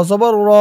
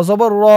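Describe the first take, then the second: The two takes are said the same way.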